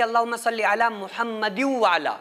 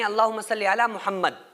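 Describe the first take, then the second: First: The name gets a vowel ending and joins on. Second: The name ends abruptly with a stop. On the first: The reciter continues in one breath. "मिला के पढ़ रहे हैं, एक सांस में पढ़ रहे हैं" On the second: The reciter pauses for breath here. "अगर आपको यहां पर सांस तोड़ रहे हैं"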